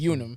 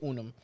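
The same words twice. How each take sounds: First: The name is said with an English-style pronunciation. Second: The name is said with a Spanish-style pronunciation. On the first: "Plain English speaker... they will say Unum"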